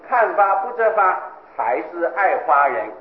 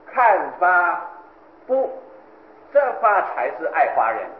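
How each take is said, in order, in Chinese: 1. 停顿在第二个'hua'之后。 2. 停顿就在'bu'之后。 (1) "你是写的" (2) "我要念作"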